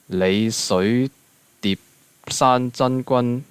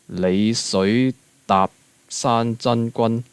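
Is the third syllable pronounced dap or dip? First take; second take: dip; dap. First: The third syllable is pronounced dip. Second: The third syllable is pronounced dap.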